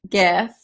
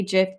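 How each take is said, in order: First: "gif" with a hard G, as in gift. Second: "gif" with a soft G, like jif. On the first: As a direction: say "gif" starting with a hard g sound. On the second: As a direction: say "gif" starting with a j sound. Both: Shown as a demonstration. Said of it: "debate on what the proper terminology is".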